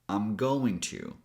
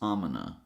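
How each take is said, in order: First: I am is contracted; going to is full. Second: The G is dropped and the words run together. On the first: "a little shorter" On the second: "eliminate the G sound and connect "I'm" with "gonna""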